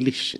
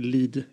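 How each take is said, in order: First: The word ends with an 'sh' sound. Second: The word ends with a 'd' sound. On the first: This is how locals say the name. The speaker calls it right. "utan Lisch" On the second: This is how outsiders say the name. The speaker calls it wrong. "De säger inte Lid"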